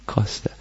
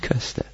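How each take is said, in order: First: The first vowel is a back rounded vowel. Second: The first vowel is a front rounded vowel. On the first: The speaker calls it right. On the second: The speaker calls it wrong. "Nicht Köster"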